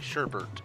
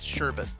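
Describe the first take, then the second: First: The second syllable has an r sound. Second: The second syllable has no r sound. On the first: The speaker calls it wrong. "one of the pronunciation things that bugs me is when people say sherbet. There's no second R in that word" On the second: The speaker calls it right. "It's sherbet"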